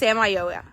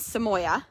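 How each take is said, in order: First: The name is said with four syllables. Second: The name is said with three syllables. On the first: This is the name's real pronunciation. The speaker calls it right. "But it's Samayoa" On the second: This is how most people say the name. The speaker calls it wrong. "that's not really how you pronounce it"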